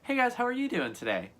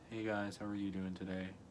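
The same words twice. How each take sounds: First: The voice sounds happy and cheerful. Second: The voice sounds sad and low.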